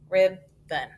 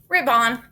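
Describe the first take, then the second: First: The second vowel is a reduced uh sound. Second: The second vowel is a full, clear o. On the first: The speaker calls it right. "We got to schwa that O" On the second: The speaker calls it wrong. "never heard that"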